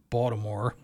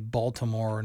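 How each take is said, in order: First: The name is clipped, with syllables run together. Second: All syllables of the name are said fully. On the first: This is the local form the speaker avoids. The speaker calls it wrong. "not Baltimore" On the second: This is the careful form the speaker makes an effort to use. The speaker calls it right. "I do have to force myself to say Baltimore"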